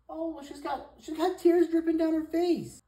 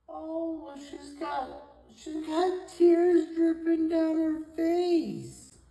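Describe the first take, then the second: First: Very high, swelling loud on the tears; high pet-talk coo. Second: Very slow, high, loud wail of pity; drawn-out coo. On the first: Cooing over cat's tears. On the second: Same coo repeated, drawn out. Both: Real, not acted.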